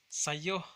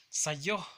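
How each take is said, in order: Both takes have the same delivery.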